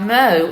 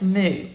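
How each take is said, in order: First: The vowel sounds like 'oh'. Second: The vowel sounds like 'oo'. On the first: The speaker calls it wrong. "It's not mo" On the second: The speaker calls it right. "it's moo"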